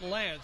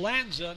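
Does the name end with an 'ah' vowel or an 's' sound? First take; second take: s sound; ah vowel. First: The name ends with a plain 's' sound. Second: The name ends with an added 'ah' vowel. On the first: The speaker calls it wrong. "not Lance" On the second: The speaker calls it right. "it's Lanza, not Lance"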